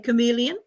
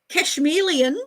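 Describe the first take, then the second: First: The word has no 'sh' sound. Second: The word contains an added 'sh' sound. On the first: The speaker calls it right. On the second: The speaker calls it wrong.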